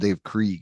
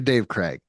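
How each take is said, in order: First: The surname's vowel sounds like 'ee'. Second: The surname's vowel sounds like 'ay'. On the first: The speaker calls it wrong. "he would always call him Dave Krieg" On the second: The speaker calls it right. "but you're Dave Craig"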